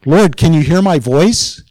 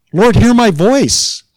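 First: Higher-pitched questioning call to God, rising at the end; acted appeal, lifted into a question; questioning plea. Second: Much higher, slow, emphatic call to God; acted cry for attention, falling at the end; insistent plea. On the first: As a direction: ask it as an uncertain plea. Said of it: "kind of an odd thing to say to God". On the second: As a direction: demand to be heard, drawing the words out. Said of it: "what's he implying?".

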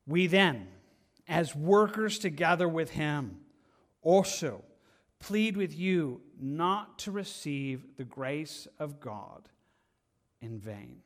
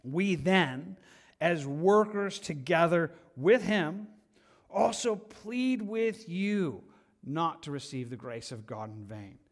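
First: Slow, weighty rereading; scripture reading. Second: Slow, weighty scripture reading. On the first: Preacher rereads verse to church, slow pleading. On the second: Preacher reads the verse to church, slow and weighty. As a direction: read the verse like a plea. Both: Acted.

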